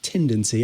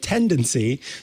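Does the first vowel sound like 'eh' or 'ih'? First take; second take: ih; eh. First: The first vowel is a closer 'ih' sound. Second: The first vowel is an open 'eh' sound. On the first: The speaker calls it wrong. "not tendency" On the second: The speaker calls it right. "a tendency to pronounce the E sound"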